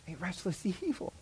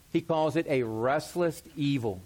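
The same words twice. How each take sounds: First: Softer, with a chuckle on evil; laughing softly. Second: Said in the usual way. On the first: Shown as a demonstration. Pastor repeating a verse to himself, quietly amused. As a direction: savor the phrase, half laughing. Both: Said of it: "repeated phrase, plain then marked".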